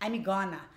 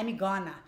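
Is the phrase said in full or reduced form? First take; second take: reduced; reduced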